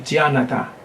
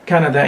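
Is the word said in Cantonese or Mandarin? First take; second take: Mandarin; Cantonese. First: The word is said with Mandarin pronunciation. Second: The word is said with Cantonese pronunciation. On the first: "in Mandarin it will be" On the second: "Canada in Cantonese"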